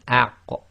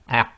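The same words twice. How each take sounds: First: The final q ends with a slight release echo. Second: The final q has no audible release echo. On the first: The speaker calls it right. "it's a very slight echo" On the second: The speaker calls it wrong. "if you try to say it without the slight echo, you cannot complete the sound"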